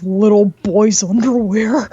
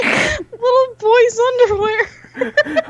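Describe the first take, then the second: First: A hint of a creepy low voice, louder; creepy deep voice. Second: High, slow, laughing words; giggling. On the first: Telling her cohost the voice in her head, lightly creepy. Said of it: "this really deep pedophile voice". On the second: Real, not acted. Starting the podcast topic, laughing. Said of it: "let's talk about".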